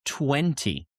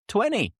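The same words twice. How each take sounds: First: Said in the usual way. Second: "twenty" said as twenny, with no T; dropped T, twenny. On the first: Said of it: "is correct". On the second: Shown as a demonstration. Teacher showing how most people say "twenty". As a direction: drop the T in "twenty". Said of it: "most people say".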